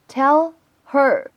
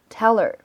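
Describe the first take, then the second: First: The h sound in 'her' is pronounced. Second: The h sound in 'her' is dropped.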